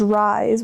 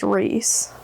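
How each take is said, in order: First: The vowel sounds like 'eye'. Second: The vowel sounds like 'ee'. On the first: The speaker calls it wrong. "I don't know why I thought it was was Rise" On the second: The speaker calls it right. "it clearly is Reese"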